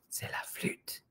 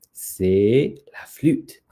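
First: Very soft whisper; whispered reveal. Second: Drawn-out, voiced announcement; slow reveal. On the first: Acted. Storyteller repeats to the children what was hidden, whispered reveal. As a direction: whisper it like a delicious secret. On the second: Storyteller shows what is behind the tail, slow reveal. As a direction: stretch "C'est" before revealing "la flûte". Reveals the hidden flute, first take.

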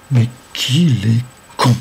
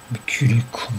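First: Slow, "con" hit hard after a gap; emphatic exasperation. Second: Muttered aside in exasperation; exasperated. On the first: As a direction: space out each word up to "con". Exasperated insult, repeated more emphatically. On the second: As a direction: grumble it to yourself. Exasperated insult, first take. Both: A narrator's reading.

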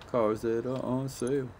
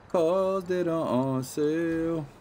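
First: Said in the usual way. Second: High, slow goofy voice; silly sing-song repeat. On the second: Pretend. Gamer repeating the sale line in a high goofy voice.

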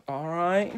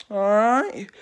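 First: Said in the usual way. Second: "right" called out louder with a falling end; punchy rallying all right. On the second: Shown as a demonstration. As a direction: shout "All right?" to get attention. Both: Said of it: "repeated all right".

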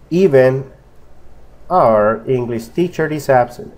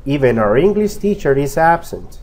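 First: Said in the usual way. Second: EVEN OUR joined as "eve-nar", no pause; fluent linking. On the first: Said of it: "Estamos pegando el sonido N con are". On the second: Shown as a demonstration. Teacher shows how to read fluently, linked words. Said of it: "para que usted pueda leer fluido".

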